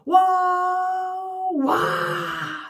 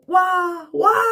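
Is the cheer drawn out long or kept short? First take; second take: long; short. First: The cheer is drawn out long. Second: The cheer is kept short.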